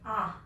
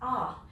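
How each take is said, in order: First: It is said with a Vietnamese accent. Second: It is said with an American accent.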